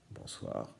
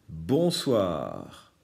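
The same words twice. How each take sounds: First: "Bonsoir" whispered, no voice at all. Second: Said in the usual way. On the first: Shown as a demonstration. Teacher to pupils whispering the word back. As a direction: breathe the word softly as a secret.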